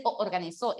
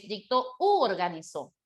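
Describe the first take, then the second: First: "o organizó" with the two o sounds run together; clashing o organizó. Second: "u organizó" with a clear oo before the o; u replacing o. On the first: Teacher rejects the faulty form, doubled o in "o organizó". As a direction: let "o" merge into "organizó". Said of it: "no puede ser o organizó". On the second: Teacher corrects the option, clear oo in "u organizó". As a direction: set "u" apart as oo before "organizó". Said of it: "es dictó u organizó". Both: Shown as a demonstration.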